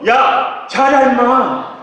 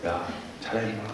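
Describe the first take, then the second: First: It is said very loudly and forcefully. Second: It is said softly and gently.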